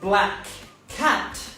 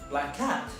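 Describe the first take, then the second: First: Both k sounds are pronounced separately. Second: One k sound is dropped between words. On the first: The speaker calls it wrong. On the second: The speaker calls it right.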